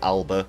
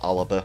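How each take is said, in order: First: The name is said with two syllables. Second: The name is said with three syllables.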